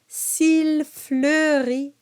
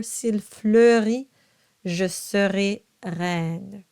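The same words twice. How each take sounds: First: S'il fleurit very slow and high; exaggerated diction. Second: S'il fleurit je serai reine slow but natural; easier diction. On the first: Teacher exaggerating for practice. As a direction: overdo each sound of s'il fleurit. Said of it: "Now I'm exaggerating". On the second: Teacher giving the relaxed version. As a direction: say it slowly, without exaggeration. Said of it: "It'll be a lot easier". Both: Shown as a demonstration.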